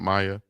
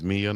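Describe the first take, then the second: First: The first vowel sounds like 'eye'. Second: The first vowel sounds like 'ee'. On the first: The speaker calls it wrong. "not Maya" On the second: The speaker calls it right. "her name is Mia"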